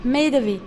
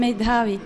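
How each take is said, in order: First: "Medhavi" with a short middle vowel. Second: "Medhavi" with a long, aspirated DHAA; long vowel. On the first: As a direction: say "Medhavi" as MAY-da-vi. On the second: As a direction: lean on the middle of "Medhavi", may-DHAA-vi. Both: Shown as a demonstration. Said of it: "Keep in mind the long vowels".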